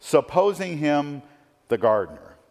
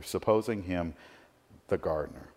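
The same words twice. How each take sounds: First: Supposing him the gardener, raised and slowed, each word leaned on; emphatic quote. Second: Quiet reflective repeat. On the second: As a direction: let "supposing him the gardener" fade into a thoughtful hush. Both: Shown as a demonstration. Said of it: "so much packed into this little phrase".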